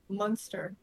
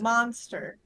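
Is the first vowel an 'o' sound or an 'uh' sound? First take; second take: uh; o. First: The first vowel is an 'uh' sound, like 'mun'. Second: The first vowel is a full 'o' sound, like 'mon'. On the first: The speaker calls it wrong. "You're saying Munster with a U" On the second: The speaker calls it right. "It's M-O, monster"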